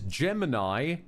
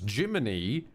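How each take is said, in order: First: The name is said like Gemini, ending in 'eye'. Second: The name is said like Jiminy, ending in 'ee'. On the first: "this is Gemini" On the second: "pronounced as Jiminy"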